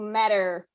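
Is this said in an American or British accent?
American. American accent, with the final r pronounced. "in the U S, ... something more similar to matter"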